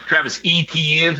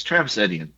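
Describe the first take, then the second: First: "Etienne" said as ee-tee-EN, with a long E at the start; mocked pronunciation. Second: "Etienne" said as eh-dee-en, with a short E at the start; correct pronunciation. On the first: Mocking how broadcasters say "Etienne" with a long E. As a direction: sound out "Etienne" the wrong way, with a long E first. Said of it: "there is no E sound in the French language". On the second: Shown as a demonstration. Correcting the announcers, "Etienne" said with a short eh.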